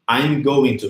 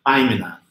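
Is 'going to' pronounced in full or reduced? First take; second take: full; reduced. First: Each word of going to is pronounced in full. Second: Going to is reduced and blended into one sound. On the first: The speaker calls it wrong. "e não dessa" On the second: The speaker calls it right. "mas se você praticar essa daqui, você vai se acostumando muito mais rápido"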